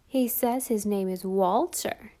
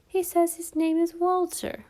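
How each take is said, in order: First: Slow, mocking repetition; comical mocking. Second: Mocking. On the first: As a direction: twist the words comically. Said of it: "with a comical twist of his mouth". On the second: Children mock Walter's name. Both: A narrator's reading.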